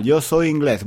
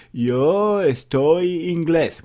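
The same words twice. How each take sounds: First: Said in the usual way. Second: Mock learner mistake. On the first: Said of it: "Muy mal, muy mal". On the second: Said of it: "Cometen errores".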